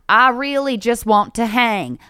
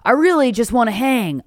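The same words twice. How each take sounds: First: It is said with a Texan accent. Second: It is said without a Texan accent. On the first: The speaker calls it right. "He's from Texas" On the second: The speaker calls it wrong. "I'm not doing the right voice"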